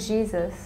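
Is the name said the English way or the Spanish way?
English. The name is said with an American English pronunciation.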